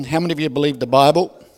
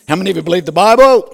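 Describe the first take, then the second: First: Said in the usual way. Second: "How many of you believe the Bible?" shouted fast and high; louder repeat. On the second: Shown as a demonstration. Preacher demanding a bigger answer from congregation, shouting. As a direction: push the question again, louder and quicker.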